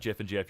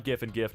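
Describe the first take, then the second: First: Jif and Jif with a soft J sound. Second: Gif and Gif with hard G as in "gift"; Gif twice, each starting like "give". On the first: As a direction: say both Jifs starting like "jet". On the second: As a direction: say both Gifs with a hard G. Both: Shown as a demonstration. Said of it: "gonna pronounce it differently".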